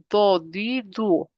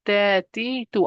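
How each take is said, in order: First: Do, di, du said heavy, with the back of the tongue raised; thick, full-mouthed do di du; heavy letter. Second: De, di, du said light, with just the tip of the tongue; thin, forward de di du. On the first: Teacher to student, demonstrating a heavy do di du. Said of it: "heavy letter". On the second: Teacher to student, contrasting a light de di du. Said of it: "I'm using the tip of my tongue". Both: Shown as a demonstration.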